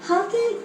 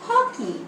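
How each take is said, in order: First: The first vowel is said with the mouth less open. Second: The first vowel is said with the mouth open wide. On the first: The speaker calls it wrong. "इसका गलत उच्चारण है" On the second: The speaker calls it right. "मुंह खोलकर बोले हॉ"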